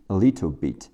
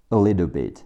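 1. little 里的 t 是清晰的 t。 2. little 里的 t 会变成闪音。

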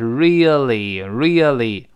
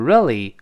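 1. 读得慢，而且读全。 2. 读得快，而且弱读。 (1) "读慢了是really" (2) "读快了就是really"

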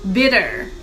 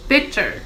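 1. 中间的辅音是柔和的 D 音。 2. 中间的辅音是清脆的 T 音。

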